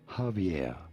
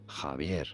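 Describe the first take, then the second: First: The J and V sound as in English. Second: The J sounds like H, the V like B. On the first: "in English it'd be fine to say it as Javier" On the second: "but if you can, Javier"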